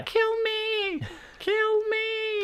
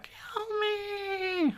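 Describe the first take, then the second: First: Tiny voice shrieking, much higher; terrified horror victim. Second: High, soft, crying plea; terrified horror victim. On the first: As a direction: squeal it out like a trapped little creature. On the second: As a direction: sob it out in a tiny high voice. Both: Retold or imitated.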